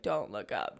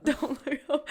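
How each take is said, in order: First: Much lower, hushed warning to herself; hushed self-warning. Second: Laughing self-warning. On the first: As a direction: mutter it low, eyes on the notepad. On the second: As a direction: repeat it with a laugh breaking through. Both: Retold or imitated.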